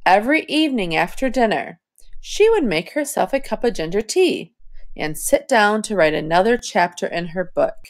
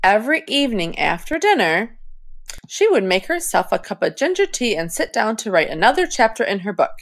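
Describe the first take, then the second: First: Phrased reading with a breath after tea; smooth phrasing. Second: Fast, no pauses, running out of air; rushed, out of breath. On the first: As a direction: scoop the words, pause at and. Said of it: "scoop up the rest of the sentence". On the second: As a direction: cram it all into one breath. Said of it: "I ran out of breath". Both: Shown as a demonstration.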